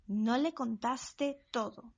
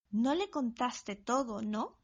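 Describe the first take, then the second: First: Said in the usual way. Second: "¿no?" tagged on as a short, lightly rising check; question tag. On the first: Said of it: "For instance". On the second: Shown as a demonstration. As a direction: add "¿no?" as a quick question tag. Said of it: "you can keep your question tag short".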